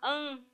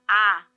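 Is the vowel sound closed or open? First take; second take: closed; open. First: The vowel is closed and nasal. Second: The vowel is open and wide. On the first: "An é um som fechado" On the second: "Olha o som do A"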